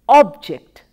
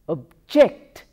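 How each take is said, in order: First: The stress is on the first syllable. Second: The stress is on the second syllable. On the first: It is used as a noun. "stress is on the first syllable" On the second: It is used as a verb. "stress is on the second syllable"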